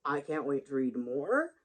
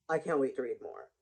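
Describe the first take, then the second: First: Slow, rising on "more"; rising tune. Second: Lower, falling on "more"; falling tune. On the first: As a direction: draw it out and lift "more" at the end. Says it twice, contrasting takes. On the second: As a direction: drop the pitch and settle down on "more". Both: Real, not acted.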